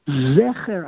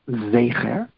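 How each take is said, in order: First: The first vowel is an open 'eh' sound. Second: The first vowel is a closed 'ay' sound. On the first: The word is read as if written with a segol. "the correct pronunciation is a segel, three dots, which forces us to pronounce the word zecher" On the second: The word is read as if written with a tsere. "is there a tsere, two dots, and that forces us to pronounce the word zecher"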